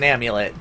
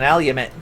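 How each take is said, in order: First: The M sound comes before the L sound. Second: The L sound comes before the M sound. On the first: The speaker calls it right. "It's an amulet" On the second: The speaker calls it wrong. "I intentionally mispronounce things"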